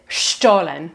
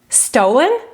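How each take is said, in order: First: The word is said with a German pronunciation. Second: The word is said with an English pronunciation. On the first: It names the German bread. "we'll stick with the elegant German accent" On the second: It sounds like the word for taken by theft. "Or is it criminal?"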